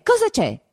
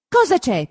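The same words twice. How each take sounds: First: Even higher, shrill-pitched repeat; higher second cry; breathless asking. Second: Loud, high panting question; first urgent cry; breathless asking. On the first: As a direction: climb up in panic on the repeat. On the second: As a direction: gasp it out to the fleeing brothers. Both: A narrator's reading. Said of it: "domandò Perpetua ansante".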